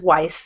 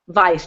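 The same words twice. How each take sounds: First: The name is said the American way. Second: The name is said the European way. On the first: "he says Weiss because he's in the United States" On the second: "If it were the European pronunciation, you'd say"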